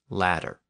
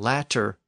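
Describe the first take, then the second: First: The middle consonant is a soft D sound. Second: The middle consonant is a clear T sound.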